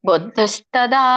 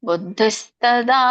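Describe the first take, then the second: Both takes have the same delivery.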